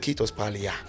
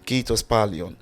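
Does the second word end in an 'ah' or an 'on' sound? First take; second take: ah; on. First: The second word ends in an 'ah' sound. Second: The second word ends in an 'on' sound. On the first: The speaker calls it wrong. "I was not pronouncing it correctly" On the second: The speaker calls it right. "started correcting me to call it kiitos paljon"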